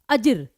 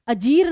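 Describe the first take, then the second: First: The second vowel is kept short. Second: The second vowel is drawn out long. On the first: The speaker calls it right. "अजिर कहा" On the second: The speaker calls it wrong. "अजीर नहीं कहा"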